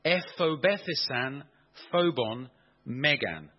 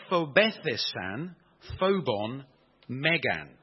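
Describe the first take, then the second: First: Slow, deliberate "Ephobethesan phobon megan"; repeating the Greek slowly. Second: "Ephobethesan phobon megan" in firm, separated words; reading out Greek. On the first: Preacher repeats the Greek so listeners hear it, slowly and deliberately. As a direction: draw out "Ephobethesan phobon megan" so each word registers. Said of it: "I'll repeat that". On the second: Preacher reads the Greek verse to the congregation, reading out Greek. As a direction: read "Ephobethesan phobon megan" clearly, a pause before each word. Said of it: "reads like this".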